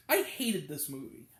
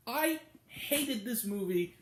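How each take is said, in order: First: Said in the usual way. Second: "I" held high, then "hated this movie" slowly; drawn-out emphasis. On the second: Real, not acted. Reviewer driving home the verdict, drawn-out emphasis on "I". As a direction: stretch "I" up high and pause before "hated".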